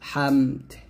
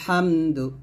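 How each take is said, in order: First: The word stops on its final consonant. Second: The word ends with a short final vowel. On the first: The reciter stops here. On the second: The recitation continues without stopping.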